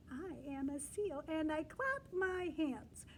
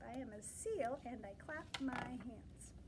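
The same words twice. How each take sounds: First: Said in the usual way. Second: Soft, hushed reading of the page; whispered read. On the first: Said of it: "teacher reads page aloud". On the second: Shown as a demonstration. Teacher whispering the sentence to the children. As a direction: whisper the line as a secret.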